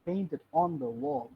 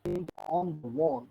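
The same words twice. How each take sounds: First: The word 'on' is said with stress. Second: The word 'on' is said with stress.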